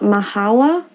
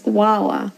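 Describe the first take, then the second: First: An h sound follows the first consonant. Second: No h sound follows the first consonant. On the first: The speaker calls it wrong. "it's not mahala" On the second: The speaker calls it right. "it's wala"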